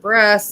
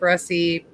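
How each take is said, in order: First: The word ends with a t sound. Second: The word ends with an ee sound. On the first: "Missus Hacks pronounce it breast" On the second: "I pronounce it Bressie"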